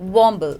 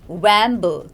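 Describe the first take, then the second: First: The first vowel is an 'aw' sound. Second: The first vowel is not an 'aw' sound. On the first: The speaker calls it right. "It's got the aw sound in it" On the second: The speaker calls it wrong. "not wamble"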